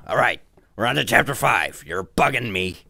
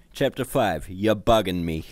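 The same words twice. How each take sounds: First: Loud, rough cartoon brute voice; Nappa. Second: Said in the usual way. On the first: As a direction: read the chapter title as a rough brute. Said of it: "This is my Nappa voice".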